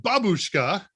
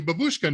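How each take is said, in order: First: Babushka with the emphasis on BA; stress on first syllable. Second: Babushka with the stress on the second syllable; mispronounced Russian. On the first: Shown as a demonstration. Learner showing the corrected word, Babushka stressed on first syllable. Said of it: "It's always on the first". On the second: Retold or imitated. Neighbor greeting the new grandmother, mispronounced Babushka stressed on BUSH. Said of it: "my pronunciation was absolutely horrible".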